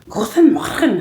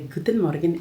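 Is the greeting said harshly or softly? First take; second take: harsh; soft. First: The greeting is said with hard, harsh sounds. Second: The greeting is said with softer, gentler sounds. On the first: This is how locals say it. "they say it really hard" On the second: This is how the speaker's own group says it. "but we would say"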